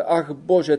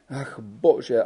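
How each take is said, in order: First: Ach bože a bit higher, pleading; lamenting. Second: Lamenting. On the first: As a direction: cry out ach bože rising in despair. (naříkavě, výš) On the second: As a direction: sigh out Ach bože in despair. (naříkavě, tiše) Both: A narrator's reading. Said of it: "naříkala".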